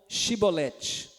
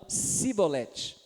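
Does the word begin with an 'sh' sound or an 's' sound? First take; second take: sh; s. First: The word begins with an 'sh' sound. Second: The word begins with an 's' sound. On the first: This is the test word the Gileadites demanded. "fala então Shibolete" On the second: This reveals the speaker as an Ephraimite. "não conseguia falar Shibolete, eles falavam Sibolete"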